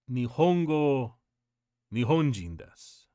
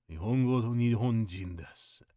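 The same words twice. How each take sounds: First: Stern father quote. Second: A lower, slightly softer cold repeat of the rule; low stern repeat. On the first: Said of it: "but he basically said". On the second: Girlfriend's father warning the American boyfriend, low and cold. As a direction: step closer and lay it down low and cold. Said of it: "that was when he said". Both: Retold or imitated.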